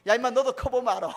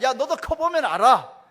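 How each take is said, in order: First: Chuckling, slightly louder dad's brush-off; laughing retort. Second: Slow, loud "커보면" with a falling end; resigned retort. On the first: Father brushing off his daughter, laughing. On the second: Father ending the argument with his daughter, slow and loud. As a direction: drag it out like a tired dad ending the talk. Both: Retold or imitated.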